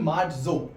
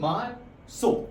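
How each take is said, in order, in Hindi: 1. बीच का व्यंजन z ध्वनि है। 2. बीच का व्यंजन s ध्वनि है। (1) "इंग्लिश में बोलते हैं मार्जो" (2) "स्पेनिश में उसकी प्रोनाउंसिएशन हो जाती है मार्सो"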